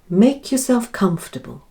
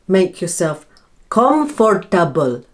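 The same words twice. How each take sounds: First: Comfortable is said with three syllables. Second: Comfortable is said with four syllables. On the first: The speaker calls it right. "You lose the O R sound in the middle" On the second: The speaker calls it wrong. "it sounds a lot better than make yourself comfortable"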